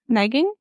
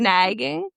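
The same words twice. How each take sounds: First: The word is said at normal speed. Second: The word is said slowly and drawn out.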